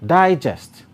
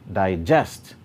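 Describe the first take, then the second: First: The stress is on the first syllable. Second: The stress is on the second syllable. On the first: It is used as a noun. "that's a noun" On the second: It is used as a verb. "that's a verb"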